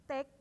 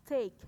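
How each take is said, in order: First: "take" as short "tek"; "take" without the glide, "tek"; wrong "take". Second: "Take" as "teik" with a gliding vowel; louder "Take", glide from e to i; correct "take". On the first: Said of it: "Jadi bukan". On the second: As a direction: say "Take" loud with an ay sound. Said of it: "T E I K bacanya itu". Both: Shown as a demonstration.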